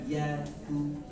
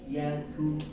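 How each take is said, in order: The two takes are said the same way.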